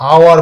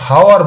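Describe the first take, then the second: First: The word begins directly with a vowel sound. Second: The word begins with an audible h sound. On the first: The speaker calls it right. "আওয়ার বলি, অর্থাৎ ও এর উচ্চারণটা করি" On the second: The speaker calls it wrong. "আমরা কখনো হাওয়ার বলি না"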